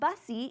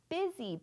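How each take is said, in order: First: The first vowel sounds like the u in bus. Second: The first vowel sounds like the i in bit. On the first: The speaker calls it wrong. "That's not bussy" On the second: The speaker calls it right. "it's busy"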